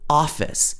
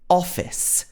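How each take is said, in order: First: It is said in an American accent. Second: It is said in a British accent. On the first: "If this was in American English, it would be more like office" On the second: "But in the British accents, it's ah"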